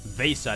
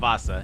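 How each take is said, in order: First: The first vowel is an 'eh' sound. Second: The first vowel is an 'ah' sound. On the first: The speaker calls it right. "It's Vesa" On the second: The speaker calls it wrong. "not Vasa"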